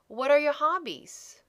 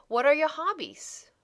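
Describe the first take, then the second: No difference in how they are said.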